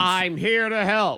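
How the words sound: It is said firmly, with confidence.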